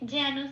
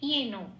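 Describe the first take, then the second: First: It is read with a Bengali pronunciation. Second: It is read with a Sanskrit pronunciation. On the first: "এটা বাংলায় বললাম।" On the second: "এটা হবে হর্ষই plus অন্তস্থয় একার"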